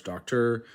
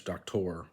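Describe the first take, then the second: First: Said in the usual way. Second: "doctor" as doc-TOR; Spanish stress. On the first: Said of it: "So it's in English". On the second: Shown as a demonstration. Learner contrasting Spanish with English, stress on the end of "doctor". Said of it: "in Spanish".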